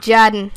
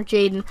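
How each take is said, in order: First: "Jaden" said as JAD-en; "Jaden" with its first vowel short; JAD-en pronunciation. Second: "Jaden" said as JAY-den; "Jaden" with JAY as first syllable; JAY-den pronunciation. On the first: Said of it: "saying it like that". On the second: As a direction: say "Jaden" with a long A, as in "day". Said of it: "it's probably Jaden". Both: Shown as a demonstration.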